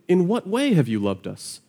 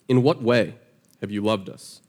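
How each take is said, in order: First: The question is asked in a sincere, curious tone. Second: The question is asked in a sarcastic, challenging tone. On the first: The asker genuinely wants to know the answer. "There's a difference between an honest question and a dishonest question" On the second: The asker doubts and challenges the claim. "that's the tone that the people are giving God here"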